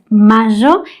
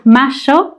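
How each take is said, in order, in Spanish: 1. La consonante del medio suena como y. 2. La consonante del medio suena como sh. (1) "enseñas este sonido como y" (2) "enseñas este sonido como sh"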